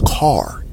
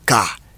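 First: The word ends with an audible r sound. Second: The word ends without an r sound. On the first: "in the American accent, it will be pronounced as car" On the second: "like for example in the Ghanaian English accent, it will be ka"

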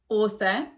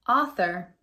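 First: It ends in a schwa without an R. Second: It ends with a clear R sound. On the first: "we use it a lot in British English" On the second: "in American English, ... we do keep the R sound"

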